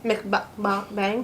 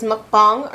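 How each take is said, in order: First: "Mukbang" said "mick-bang", with an "ih" and a flat "a" as in cat; pronunciation. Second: "mukbang" said "muk-bahng", with an "uh" as in cup and "ah" as in father; pronunciation. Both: Shown as a demonstration. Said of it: "let us know if it's mukbang or mukbang".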